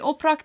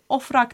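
First: It is said with a p sound before r. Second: It is said with an f sound before r. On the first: This is the form that was not used. "Oprak değil" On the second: This is the form people used from then on. "ofrak demişler"

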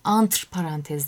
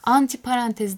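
First: The first word ends with a bare 'tr' cluster. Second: The first word ends with an 'ee' vowel. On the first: The speaker calls it right. "antr parantez dememiz lazım" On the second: The speaker calls it wrong. "anti parantez diyoruz ki o kadar yani yanlış ve farklı bir kullanım"

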